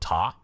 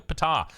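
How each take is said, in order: First: The word starts without any P sound. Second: The word starts with an audible P sound.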